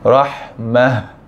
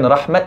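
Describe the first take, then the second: First: The word ends with a soft h sound. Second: The word ends with a clipped t sound. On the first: The speaker calls it right. "bacaan betulnya adalah rahmah" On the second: The speaker calls it wrong. "Dan bukan rahmat"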